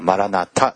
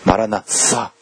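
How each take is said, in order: First: The third consonant is a T sound. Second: The third consonant is an S-like sound. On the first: This is the Japanese way of saying it. "日本語ではマラナタですね" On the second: This is the English-style way of saying it. "英語的発音なんですけども"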